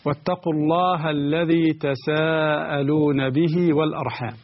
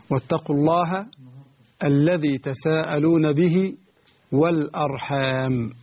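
First: Sung, Quran recitation. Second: Said in the usual way. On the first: Shown as a demonstration. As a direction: chant the verse in tajweed.

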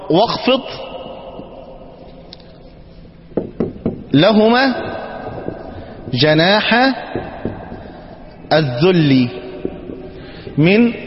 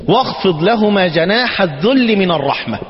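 First: "واخفض" "لهما" "جناح" "الذل" "من" each said alone with long pauses; word by word. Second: Slow reverent verse reading; quoted verse. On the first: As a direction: split the verse into single words for parsing. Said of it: "اما نقول". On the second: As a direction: recite the verse "واخفض لهما جناح الذل من الرحمة" slowly and evenly. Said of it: "ربنا سبحانه وتعالى يقول ايه". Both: Shown as a demonstration.

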